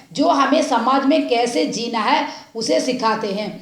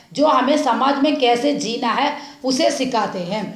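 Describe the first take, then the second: The two takes are said the same way.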